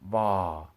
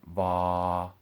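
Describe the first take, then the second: First: The pitch falls from the middle. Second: The pitch stays level in the middle. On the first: "then as falling tones" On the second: "first as a middle tone"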